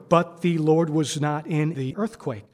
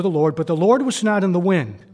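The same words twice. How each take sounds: First: Said in the usual way. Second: Big, loud preaching boom; thunderous reading of the wind; dramatic boom. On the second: Acted. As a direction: proclaim it like the roaring wind.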